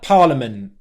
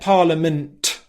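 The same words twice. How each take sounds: First: The final T is held without release. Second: The final T is released with a burst. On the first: "The tongue's going into position, but then he's not released the sound" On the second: "He's not said parliament"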